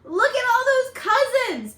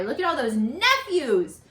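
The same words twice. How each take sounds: First: High, louder delighted exclaim; bright wow at the crowd; excited. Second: Said in the usual way. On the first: Acted. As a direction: point out the crowd with glee. Excited aside, then self-corrected. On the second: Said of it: "Oh, not cousins, nephews".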